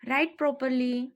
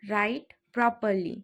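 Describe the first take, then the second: First: Said in the usual way. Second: Slow, careful repeat for learners; drawn-out teaching repeat. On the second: Shown as a demonstration. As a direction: stretch each word out clearly. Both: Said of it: "teacher repeats phrase twice".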